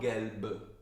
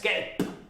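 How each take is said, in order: First: The final consonant is a soft, voiced B. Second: The final consonant is a hard, voiceless P. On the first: The speaker calls it wrong. "it's not gelb. This should be the Italian word" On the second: The speaker calls it right. "it's like a P ... It's like the beatbox"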